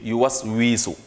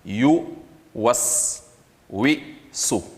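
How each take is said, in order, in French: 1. La voyelle de 'wi' est allongée, longue. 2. La voyelle de 'wi' reste brève, courte. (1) "Évitez de dire ... le waw avec la voyelle i serait tiré par un ya" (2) "On dit donc"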